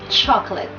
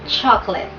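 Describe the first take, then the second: No difference in how they are said.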